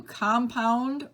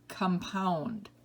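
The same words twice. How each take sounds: First: COM-pound, first syllable stressed. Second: Kum-POUND, second syllable stressed. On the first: Teacher reading word list to students, compound as COM-pound. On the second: Teacher giving other pronunciation, compound as kum-POUND. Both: Shown as a demonstration. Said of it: "give you both pronunciations".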